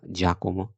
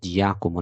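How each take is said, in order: First: No glide follows the first consonant. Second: A 'y' glide follows the first consonant. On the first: The speaker calls it right. "لا جاكومو" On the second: The speaker calls it wrong. "ما قلناش جياكومو"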